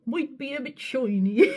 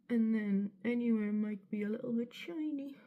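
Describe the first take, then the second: First: Higher, hammed-up Bristolian, "shoiny"; mock Bristolian accent. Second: A hint of Bristolian, spoken softly; slight Bristolian accent. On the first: Vlogger mimicking her own accent slip, mock Bristolian. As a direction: exaggerate a bad Bristol accent. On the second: Real, not acted. Vlogger's accent slipping while doing makeup, slight Bristolian. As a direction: drift lightly into a Bristol accent. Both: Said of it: "there I went a bit Bristolian".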